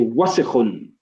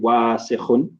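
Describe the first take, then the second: First: The vowel after the first consonant is short. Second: The vowel after the first consonant is long. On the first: The speaker calls it right. "We say wasikhun" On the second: The speaker calls it wrong. "There's no alif after the wow. We don't say wasikhun"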